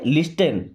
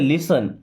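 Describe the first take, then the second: First: The t sound is clearly pronounced. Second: The t sound is left out. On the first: The speaker calls it wrong. "अगर आप इसे पढ़ते हो तो क्या पढ़ते?" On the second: The speaker calls it right. "But यहां पे टी साइलेंट है"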